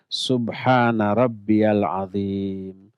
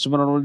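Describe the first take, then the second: First: It is slow with clear, distinct vowels. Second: It is rushed with unclear vowels.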